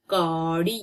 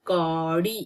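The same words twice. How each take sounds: The two takes are said the same way.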